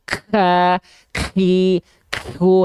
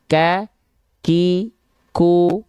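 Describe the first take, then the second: First: The k sounds have an exaggerated, forceful breath burst. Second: The k sounds have only a light breath burst. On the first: The speaker calls it wrong. "Nah jadinya berlebihan gitu" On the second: The speaker calls it right. "Cukup biasa saja"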